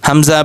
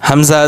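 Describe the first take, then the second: Both takes have the same delivery.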